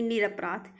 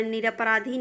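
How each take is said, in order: First: निरपराध ending on the consonant; correct pronunciation. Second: निरपराधी ending in long "ee"; wrong pronunciation. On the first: Teacher correcting students, निरपराध without final "ee". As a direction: stop निरपराध at "raadh", no final vowel. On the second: Teacher showing students the error, निरपराधी with final "ee". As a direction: add "dhee" at the end of निरपराधी. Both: Shown as a demonstration. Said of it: "निरपराधी नहीं".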